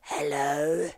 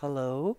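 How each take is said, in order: First: It is said in a weird, creepy voice. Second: It is said in a normal human voice.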